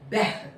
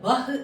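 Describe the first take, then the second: First: The vowel is an 'e'-like sound. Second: The vowel is an open 'a' sound. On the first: The speaker calls it right. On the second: The speaker calls it wrong.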